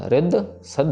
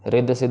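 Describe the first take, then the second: First: The doubled consonants are pressed with clear force. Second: The doubled consonants are said lightly, without pressure. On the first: The speaker calls it right. "इनको pressure देके पढ़ना है" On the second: The speaker calls it wrong. "रिद्ध सिद्ध नहीं पढ़ देना"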